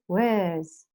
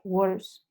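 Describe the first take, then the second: First: The vowel is an 'er' sound, not 'o'. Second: The vowel sounds like a rounded 'o'. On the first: The speaker calls it right. "no tiene una O. Es worse" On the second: The speaker calls it wrong. "que nosotros decimos worse, está mal dicho"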